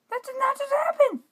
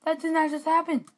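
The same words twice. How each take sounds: First: Much higher shriek of disbelief. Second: Disbelief. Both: Real, not acted. Losing in game.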